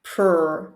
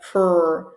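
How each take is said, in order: No difference in how they are said.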